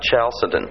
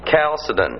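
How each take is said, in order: First: The word begins with a soft CH sound. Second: The word begins with a hard K sound. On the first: The speaker calls it wrong. "not Chalcedon" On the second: The speaker calls it right. "pronounced with a hard CH, like Christ. You know, a K sound"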